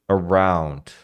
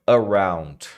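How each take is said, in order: Both takes have the same delivery.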